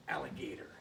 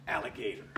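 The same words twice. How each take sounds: First: Alligator breathed out in a whisper; soft whispered alligator on the smack. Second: Said in the usual way. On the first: Shown as a demonstration. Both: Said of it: "alligator smack it".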